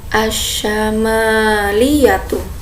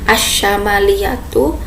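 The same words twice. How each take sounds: First: The vowel after the m is long. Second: The vowel after the m is short. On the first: The speaker calls it right. "tapi yang benar asyamaliyatu. Jadi mimnya dipanjangkan" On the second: The speaker calls it wrong. "bukan asyamaliyatu"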